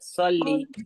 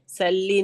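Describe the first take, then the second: First: The first s sound is thick and heavy. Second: The first s sound is thin and light. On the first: The speaker calls it right. "उसको हम मोटा पढ़ेंगे" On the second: The speaker calls it wrong. "सल्ली नहीं, सल्ली बोलेंगे तो सीन की अदायगी होगी"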